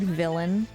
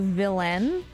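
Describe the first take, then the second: First: The stress is on the first syllable. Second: The stress is on the last syllable. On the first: The speaker calls it right. "more closely pronounced like the word villain" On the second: The speaker calls it wrong. "like the emphasis on the end"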